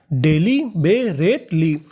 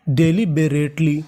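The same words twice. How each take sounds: First: daily बेरेटली stretched slowly, de-li be-ret-li spaced apart; slow syllable by syllable. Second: Said in the usual way. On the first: Shown as a demonstration. Teacher sounding out daily बेरेटली slowly for class. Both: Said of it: "तो पूरी meaning".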